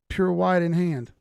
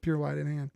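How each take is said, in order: First: Dramatic announcement. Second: Said in the usual way. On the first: Pretend. Streamer reading a viewer's name aloud, a loud, slow dramatic announcement. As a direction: boom it out like a title card.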